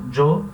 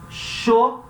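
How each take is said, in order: First: The word starts with a strong j sound. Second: The word starts with an sh sound. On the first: This is common in Mexico. "Eu sempre falo jo" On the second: This is common in Paraguay and Uruguay. "principalmente Paraguai e Uruguai, a gente fala sho"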